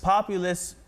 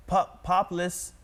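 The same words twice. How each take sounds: First: "populist" as POP-you-liss, three syllables; corrected populist. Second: "populist" squashed to POP-liss after a false start; stumble, then say "populist" as POP-liss; stumbled misreading. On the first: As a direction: say "populist" with the middle "you" sounded. Repeats the coach's correction. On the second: Coach corrects the stumbled word. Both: Shown as a demonstration.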